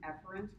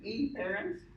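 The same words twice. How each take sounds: First: The first vowel is said in a natural, reduced way. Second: The first vowel is exaggerated to sound distinct. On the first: The speaker calls it right. "They're actually afferent and efferent, but it doesn't sound very different" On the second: The speaker calls it wrong. "I texticize them and say afferent and efferent. Don't say that in front of smart people"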